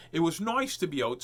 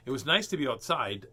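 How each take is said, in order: First: Lightly voiced show host; put-on voice. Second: Said in the usual way. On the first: Shown as a demonstration. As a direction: still in the silly voice. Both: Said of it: "so, I'll talk normal".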